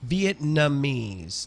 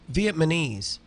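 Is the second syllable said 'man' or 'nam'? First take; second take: nam; man. First: The second syllable sounds like 'nam'. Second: The second syllable sounds like 'man'. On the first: The speaker calls it right. "no, no, Vietnamese ... Vietnam. So it's Vietnamese" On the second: The speaker calls it wrong. "they will say stupid things like Vietnamese ... no such place as Vietman"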